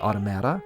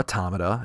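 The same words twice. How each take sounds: First: The word is said the casual, everyday way. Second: The word is said the fussy, careful way.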